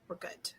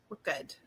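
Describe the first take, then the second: First: Whispered to herself. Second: Said in the usual way. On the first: Real, not acted. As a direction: breathe it out as a whisper. Repeats to herself, then whispers.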